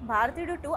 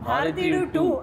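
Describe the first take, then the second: First: The title is said plainly, without emphasis. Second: The title is said with proud, forceful emphasis. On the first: The speaker calls it wrong. "అని అనలేం" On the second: The speaker calls it right. "అనాలన్నమాట. ... గర్వం ఉంటుంది"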